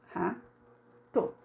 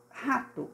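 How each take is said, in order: First: "Rato" with a long gap inside; syllable by syllable. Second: Said in the usual way. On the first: Shown as a demonstration. Teacher writing the word out, split "Rato". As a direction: dictate "Rato" in two separate pieces. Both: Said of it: "separou a primeira sílaba".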